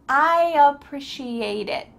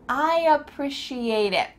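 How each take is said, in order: Both takes have the same delivery.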